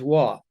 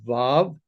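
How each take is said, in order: First: The word begins with a w sound. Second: The word begins with a v sound. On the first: This is how Yemenite speakers say it. "In the Yemenite dialect, they pronounce it as wa" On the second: This is how it is said today. "we pronounce it today as vav"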